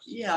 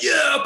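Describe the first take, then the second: First: It is said softly with calm relaxed energy. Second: It is said loudly with high excited energy. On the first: Purpose feels like deep ease and being at home. "I'm kind of deeply at ease and at home" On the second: Purpose feels like a burst of hyped-up excitement. "like some sort of, you know, over caffeinated American"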